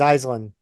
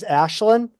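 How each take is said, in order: First: The first syllable sounds like 'ice'. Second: The first syllable sounds like 'ash'. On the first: This is how the name is said in America. "the Americanized pronunciation" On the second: This is how the name is said in Irish. "the actual Irish pronunciation"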